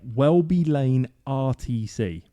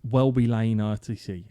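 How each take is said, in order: First: The words are spoken clearly and distinctly. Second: The words are slurred and run together. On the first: The speaker calls it right. "I said it properly that time" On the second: The speaker calls it wrong. "I sound like I've been to the pub"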